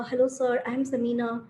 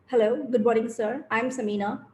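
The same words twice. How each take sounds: First: Mildly meek self-introduction. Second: Slightly lowered, confident greeting; confident, moderately low-pitched self-introduction; heavy voice. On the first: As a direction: introduce yourself timidly, holding back a little. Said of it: "start with very meek language". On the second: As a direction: introduce yourself with a bit more weight. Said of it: "heavy voice". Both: Shown as a demonstration.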